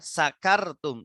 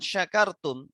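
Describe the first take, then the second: First: The word begins with a plain s sound. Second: The word begins with a sh sound. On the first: You have been drunk. The speaker calls it wrong. "tapi kita baca ringan tanpa titik ya" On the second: You have been grateful. The speaker calls it right. "shinnya yang asalnya besar ya, shin besar ada titik tiga"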